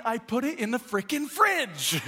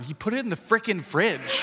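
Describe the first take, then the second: First: High-pitched exasperated outburst; mock losing it, voice way up in frustration; worked up. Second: Put-on higher little-kid tattling; small child. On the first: Dad losing patience with his son, high exasperated outburst. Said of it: "I'm all worked up". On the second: Three-year-old reporting dad to mom, high childish complaint. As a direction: imitate a child innocently repeating dad's words. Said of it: "He's like".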